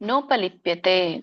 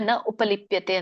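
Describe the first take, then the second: First: The parts are merged into one word. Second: The parts are said as two words. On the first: This is how it is chanted. "ರಾಗವಾಗಿ ಹೇಳುವಾಗ ಕೂಡಿ ಹೇಳಿ" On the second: This shows the separate words. "ಬಿಡಿಸಿದಾಗ"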